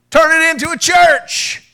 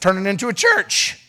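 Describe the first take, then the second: First: Emphatic repeat. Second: Said in the usual way. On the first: Acted. Pastor repeating his advice to Sean, belted emphatically. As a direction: Turn it into a church belted higher and louder, slowly.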